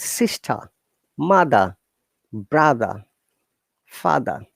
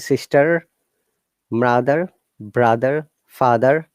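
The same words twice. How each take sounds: First: British accent, with no R sound at the ends. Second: American accent, with an R sound at the ends. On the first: "we call it" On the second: "R is there"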